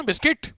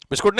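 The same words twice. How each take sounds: First: "बिस्किट" ending in a crisp -kit, pitched high; schoolroom-proper "बिस्किट", short i, lifted at the end; proper biskit pronunciation. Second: "बिस्कुट" with -koot in place of -kit; "बिस्कुट" with an oo sound, as the form to avoid; rejected biskoot pronunciation. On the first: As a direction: model "बिस्किट" as bis-KIT with a rising tune. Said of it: "proper हुआ था बराबर". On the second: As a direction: say "बिस्कुट" as bis-koot, pitched up. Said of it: "बिस्कुट नहीं". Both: Shown as a demonstration.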